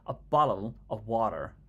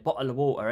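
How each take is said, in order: First: It is said in an American accent. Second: It is said in a mock British accent. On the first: How Americans themselves talk. "when you speak to an American, they they always say" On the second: Americans mocking how British people talk. "They say bottle of water in it"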